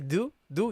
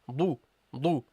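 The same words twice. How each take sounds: First: The sound is light and thin. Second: The sound is heavy and full. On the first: The speaker calls it wrong. "You don't say" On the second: The speaker calls it right. "it should be pronounced heavily"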